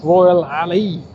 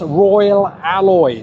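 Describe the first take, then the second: First: The last word ends with an 'ee' sound. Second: The last word ends with an 'oy' sound. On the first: The speaker calls it wrong. "not Royal Ali" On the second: The speaker calls it right. "It's Royal Alloy"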